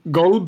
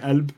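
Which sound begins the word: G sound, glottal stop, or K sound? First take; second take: G sound; glottal stop. First: The word begins with a G sound. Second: The word begins with a glottal stop. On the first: This is the Gulf form. "Golb is how you'd say it in the Gulf" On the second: This is the Levantine form. "In the Levant, where I'm from, it's a glottal stop, so we'd say Elb"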